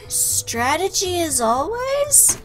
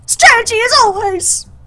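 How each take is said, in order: First: It is said flatly, without feeling. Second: It is said loudly with strong feeling.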